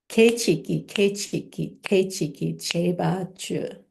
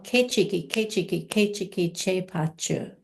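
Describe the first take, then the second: First: It is said slowly. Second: It is said fast.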